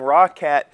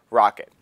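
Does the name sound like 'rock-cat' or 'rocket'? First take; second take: rock-cat; rocket. First: The second syllable is said like 'cat'. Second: The second syllable is said like 'kit'. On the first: It is read the way it is spelled. "I called them Roccat because it is spelled R O C C A T" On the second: It is the way the company says it. "the way they actually pronounce it is Rocket"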